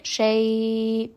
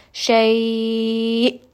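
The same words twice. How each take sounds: First: Shay trailing off with no stop in the throat; missing hamza stop. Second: Shay cut off sharply in the throat on the hamza; abrupt hamza stop. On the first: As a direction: let shay fade like a madlin. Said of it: "it will sound like shay". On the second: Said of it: "you can hear I've kind of abruptly stopped that sound in my throat". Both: Shown as a demonstration.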